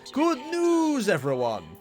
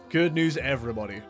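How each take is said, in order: First: It is said in a put-on character voice. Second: It is said in his normal voice.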